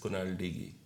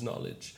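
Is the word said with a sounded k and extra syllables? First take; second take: yes; no. First: The k is sounded and syllables are added. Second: The k is silent with two syllables. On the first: The speaker calls it wrong. "one of my favorite words that was mispronounced" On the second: The speaker calls it right. "it was knowledge"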